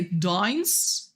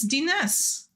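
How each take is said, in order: First: Dines said as "dynes", long I like dine; "Dines?" as dynes, not tee-nus; wrong pronunciation. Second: Dines said as "tee-nus", two syllables with a short I; "Dines" as dee-nus, first syllable stressed; correct pronunciation. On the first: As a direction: say "Dines?" with the diphthong, rhyming with fines. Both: Shown as a demonstration. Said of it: "It's not Dines".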